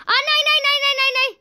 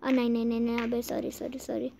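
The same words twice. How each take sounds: First: High, frantic string of no's; panicked cry. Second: Soft, low little protest; subdued apology. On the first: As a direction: blurt alarm, pitched very high. About to fall in game. (घबराकर चीखते हुए) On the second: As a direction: apologise softly, pitched low. Small slip, apologising to character. (दबी आवाज़ में माफ़ी) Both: Real, not acted.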